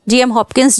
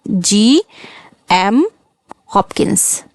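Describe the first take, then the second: First: Said in the usual way. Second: Slow spelled-out name. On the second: Shown as a demonstration. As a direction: say GM very slowly, then drop to Hopkins. Teacher repeats the name slowly. (नाम धीरे-धीरे, GM खींचकर, फिर Hopkins धीमे से)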